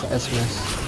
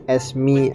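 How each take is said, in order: First: The name ends with an added s sound. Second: The name ends without an added s sound. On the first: "I just say it as Esmes because I think it's cooler" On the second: "I know it's pronounced Esme as in like Esmeralda"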